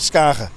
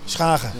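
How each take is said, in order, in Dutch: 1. De naam begint met een gewone s plus k. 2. De naam begint met een s plus een keelachtige ch.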